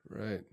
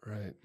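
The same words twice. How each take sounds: The two takes are said the same way.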